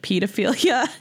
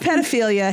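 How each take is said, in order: First: The word has the British pronunciation. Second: The word has the non-British pronunciation. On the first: The speaker calls it wrong. "That's the British way" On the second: The speaker calls it right. "I love pedophilia"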